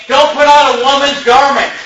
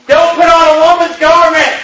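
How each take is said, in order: First: Quoting the verse. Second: Higher, louder, hammered verse; preacher thundering the verse again; forceful quote. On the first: Retold or imitated. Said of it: "look what the Bible says, Brother Dave". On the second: Acted. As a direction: bang out the commandment as a rebuke.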